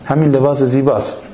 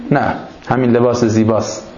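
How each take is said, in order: First: Said in the usual way. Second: نه set apart and stressed at the start of the line. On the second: Shown as a demonstration. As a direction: lean on the added word نه to correct the poem. (تأکید روی «نه») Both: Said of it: "نه آقا، شعر اینجوری بود".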